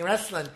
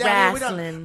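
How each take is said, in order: First: It is said with standard pronunciation. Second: It is said in a Southern drawl. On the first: It means Greco-Roman wrestling. "is that Greco-Roman wrestling" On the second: It means Memphis-style pro wrestling. "Say it right, [name], if you're going to say it"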